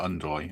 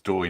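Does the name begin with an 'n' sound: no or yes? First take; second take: yes; no. First: The name starts with an 'un' sound before 'd'. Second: The name starts directly with a 'd' sound. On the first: The speaker calls it wrong. "not Undoy" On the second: The speaker calls it right. "It's Doy"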